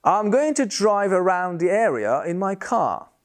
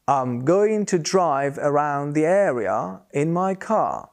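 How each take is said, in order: First: Said in the usual way. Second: Slow, careful, R sounded in drive and area but not car; R linked before vowels. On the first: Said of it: "Listen to this example". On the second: Shown as a demonstration. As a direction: show the R only before a vowel, slowly. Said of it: "we pronounce the R's".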